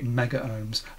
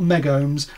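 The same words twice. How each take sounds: First: The 'a' of mega is fully pronounced. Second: The 'a' of mega is dropped entirely. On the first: The speaker calls it right. "I did say mega ohms" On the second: The speaker calls it wrong. "dropping the A is just lazy"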